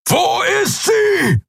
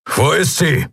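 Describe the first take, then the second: First: High, slow bellowed question; roaring shout. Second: Higher demanding question; Keru asking. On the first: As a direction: bellow it out, stretching each word. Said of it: "brüllte er". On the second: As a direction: ask where she is, pressed but held back. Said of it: "Wo ist sie? brüllte er". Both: A narrator's reading.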